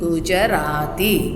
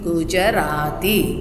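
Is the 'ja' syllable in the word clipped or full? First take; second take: full; full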